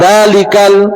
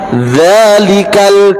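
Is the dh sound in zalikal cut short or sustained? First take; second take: cut short; sustained. First: The dh sound is cut short, not flowing. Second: The dh sound is sustained and flowing. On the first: The speaker calls it wrong. "bukan zalikal" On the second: The speaker calls it right. "zal harus dialirkan"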